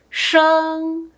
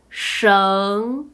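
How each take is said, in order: First: The pitch stays high and level. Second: The pitch rises from middle to high.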